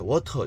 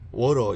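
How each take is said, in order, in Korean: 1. 가운데 t는 강하고 분명한 t 소리예요. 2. 가운데 t는 부드럽게 튕기는 소리예요. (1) "영국은 강하게 워터" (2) "미국식은 워러 이래지만"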